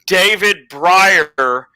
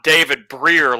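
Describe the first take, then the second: First: The surname rhymes with fire. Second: The surname rhymes with beer. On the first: The speaker calls it right. "like fire" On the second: The speaker calls it wrong. "not David Breer like beer"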